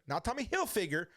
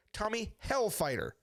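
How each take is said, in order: First: Said in the usual way. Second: "Hellfighter" set out as a correction; "Hellfighter" stressed to correct the name. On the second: Shown as a demonstration. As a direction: land clearly on "Hellfighter".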